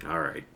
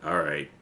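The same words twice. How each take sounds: The two takes are said the same way.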